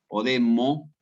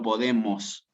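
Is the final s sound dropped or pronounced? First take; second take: dropped; pronounced. First: The final s sound is left off. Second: The final s sound is clearly said. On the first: The speaker calls it wrong. "no decir las eses al final" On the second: The speaker calls it right. "y no podemos"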